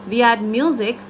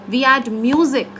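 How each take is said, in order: No difference in how they are said.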